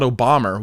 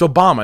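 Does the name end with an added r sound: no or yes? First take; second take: yes; no. First: It ends with an added r sound. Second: It ends in a plain vowel with no r. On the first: The speaker calls it wrong. "not Obama. Why are you going to say Obama, British people? You just add an R" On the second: The speaker calls it right. "It's Obama"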